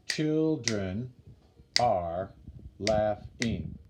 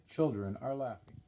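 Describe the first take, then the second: First: Put-on "Children are laughing" slowly, with a gap after each word; syllable by syllable. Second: Said in the usual way. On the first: Shown as a demonstration. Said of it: "I just kinda diagrammed it for you". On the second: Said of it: "Last line".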